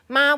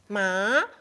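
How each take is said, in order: First: It is said with the first tone. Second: It is said with the second tone. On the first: It means mother. "First tone, ma will be mother" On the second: It means hemp. "the material, cloth material, hemp"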